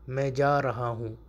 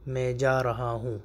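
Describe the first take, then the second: No difference in how they are said.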